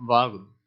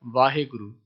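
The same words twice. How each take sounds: First: ਵਾਹਿਗੁਰੂ said with its proper written sounds; ਸ਼ੁੱਧ ਉਚਾਰਨ; correct pronunciation. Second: ਵਾਹਿਗੁਰੂ said the common spoken way, vowels run together; ਆਮ ਬੋਲਚਾਲ ਵਾਲਾ ਉਚਾਰਨ; everyday pronunciation. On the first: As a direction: say ਵਾਹਿਗੁਰੂ the pure way, each syllable as written. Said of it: "ਸ਼ਬਦ ਦਾ ਉਚਾਰਨ ਹੈ". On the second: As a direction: say ਵਾਹਿਗੁਰੂ as people usually say it. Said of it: "ਅਸੀਂ ਇਹਦਾ ਉਚਾਰਨ ਕਰਦੇ ਹਾਂ". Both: Shown as a demonstration.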